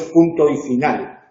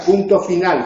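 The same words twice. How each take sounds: First: Said in the usual way. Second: "Punto final" stressed firmly, with no "y" between; corrective emphasis. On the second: Shown as a demonstration. ("Punto final" con énfasis, corrigiendo) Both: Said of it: "no es punto y final".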